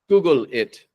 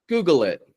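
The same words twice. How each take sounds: First: The dark L is cut off before the next word. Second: A light L links smoothly into the next word. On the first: The speaker calls it wrong. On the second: The speaker calls it right.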